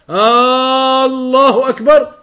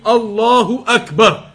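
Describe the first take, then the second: First: The opening vowel is drawn out long. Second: No vowel is drawn out beyond normal length. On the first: It turns the phrase into a question. The speaker calls it wrong. "To elongate it like that" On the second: The phrase keeps its proper meaning. The speaker calls it right. "it must be pronounced properly and accurately"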